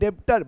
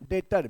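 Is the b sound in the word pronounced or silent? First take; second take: pronounced; silent. First: The b sound is pronounced in the middle. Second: The b sound is left out in the middle. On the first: "लिखते हैं डेब्टर" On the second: "पढ़ते हैं डेटर, बी silent रहता है"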